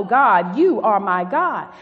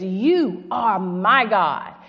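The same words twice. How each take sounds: First: Proclaimed louder, with force; loud scripture quote. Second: Each word drawn out slowly; slow scripture quote. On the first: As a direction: declare it to the church. Quoting David's prayer aloud. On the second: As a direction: let the prayer sink in, slowly. Quoting David's prayer slowly. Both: Acted.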